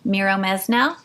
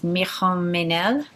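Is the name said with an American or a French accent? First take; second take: American; French. First: It is said with an American accent. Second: It is said with a French accent. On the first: "I'm going to say it with an American accent" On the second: "But the French way to say it, I think, is"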